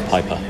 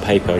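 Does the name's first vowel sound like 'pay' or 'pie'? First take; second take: pie; pay. First: The first vowel sounds like 'pie'. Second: The first vowel sounds like 'pay'. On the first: The speaker calls it right. "Even though it's EY, it's Pyper" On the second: The speaker calls it wrong. "Not Paper"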